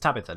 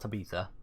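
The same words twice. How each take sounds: First: The stress is on the first syllable. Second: The stress is on the second syllable. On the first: The speaker calls it right. "It's Tabitha" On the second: The speaker calls it wrong. "not Tabitha. I'm thinking of Ibiza"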